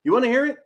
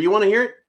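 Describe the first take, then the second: First: Pitched up and louder on hear; teasing, higher repeat. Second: Teasing call-out. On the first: Host teasing his audience, pitched up. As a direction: push the second ask up high. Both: Shown as a demonstration.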